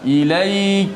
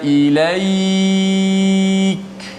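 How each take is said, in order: First: The final glide is held only briefly. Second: The final glide is held at medium length. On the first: "Nak baca dua" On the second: "Boleh baca empat harakat"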